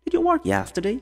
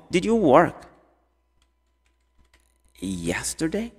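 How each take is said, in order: First: High-pitched question in one flow; run together. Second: Long pause before "yesterday"; broken into parts. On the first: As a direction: link "Did you work yesterday" without a pause. (pergunta ligada, sem pausas, em tom agudo) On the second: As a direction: hold back, then add "yesterday" slowly. Teacher splits question into parts. (pausa longa antes de "yesterday") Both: Shown as a demonstration.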